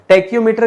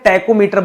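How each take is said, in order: First: The first part sounds like 'tackyo', with a y. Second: The first part sounds like 'tacko', without a y. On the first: The speaker calls it wrong. "टैक्यो नहीं" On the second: The speaker calls it right. "टैकोमीटर बोला जाता है"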